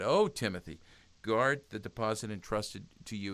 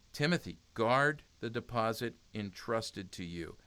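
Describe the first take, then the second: First: Mildly acted earnest entreaty; begging. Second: Said in the usual way. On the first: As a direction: implore with a swelling "Oh", then urge earnestly. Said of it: "He was, he was begging". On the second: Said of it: "he didn't say Timothy".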